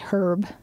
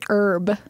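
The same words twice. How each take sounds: First: The word starts with a pronounced h. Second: The word starts with a silent h. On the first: "some people say herb. With an H" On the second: "I say herb"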